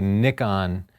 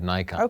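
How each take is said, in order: First: Nikon is said with the Japanese pronunciation. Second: Nikon is said with the American pronunciation. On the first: This is how the company is called in Japan. "He wants us to say Nikon" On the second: This is the official US pronunciation. "instead of Nikon"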